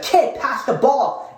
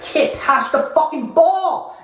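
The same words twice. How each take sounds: First: Calling out. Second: Higher, louder, slow drawn-out mock yell; imitating a yell. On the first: Retold or imitated. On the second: Player yelling at the ball boy for the ball, mock yell. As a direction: bark it at the dreamy kid. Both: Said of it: "He yelled at me".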